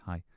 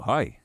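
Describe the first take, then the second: First: It is said quietly and timidly. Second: It is said loudly and confidently.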